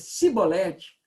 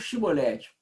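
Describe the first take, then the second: First: The word begins with a plain 's' sound. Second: The word begins with an 'sh' sound. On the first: The speaker calls it wrong. "não podendo exprimir bem a palavra" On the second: The speaker calls it right. "a gente tinha que pronunciar aquele, aquele C H ou o S H"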